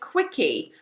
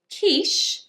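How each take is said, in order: First: It starts with k and ends with an ee vowel. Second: It starts with sh and has no final vowel. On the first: The speaker calls it wrong. "they try to say the ch as a k, and they try to also pronounce the e" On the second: The speaker calls it right. "the ch is a sh"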